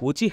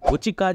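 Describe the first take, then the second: First: The last syllable is pronounced with an h sound. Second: The last syllable is pronounced with a k sound. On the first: The speaker calls it right. "ఉచిహ అని" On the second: The speaker calls it wrong. "ఉచికా చేస్తారు"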